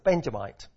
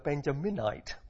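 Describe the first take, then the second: First: The word has three syllables, with no extra syllable. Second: The word has four syllables, with an extra middle syllable. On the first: The speaker calls it right. "It's a Benjamite" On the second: The speaker calls it wrong. "It's very easy to call him a Benjaminite, but that's not what it is"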